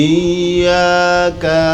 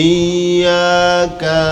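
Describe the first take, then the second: The two takes are said the same way.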